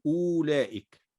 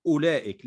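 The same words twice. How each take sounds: First: "أولئك" mistakenly said with the waw sounded, as uwlaika; wrong reading. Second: "أولئك" said as ulaika, with no waw, only a hamza with damma; correct reading. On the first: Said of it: "لا نقول". (النطق الخاطئ "أولئك" بنطق الواو) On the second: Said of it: "إنما ننطق فقط همزة مضمومة". (النطق الصحيح "أولئك" بلا واو) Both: Shown as a demonstration.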